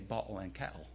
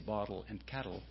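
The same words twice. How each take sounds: First: The middle t is replaced by a glottal stop. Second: The middle t is pronounced as a clear t. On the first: "They say bottle and kettle. ... that's a glottal in your throat" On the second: "people who don't say bottle and kettle"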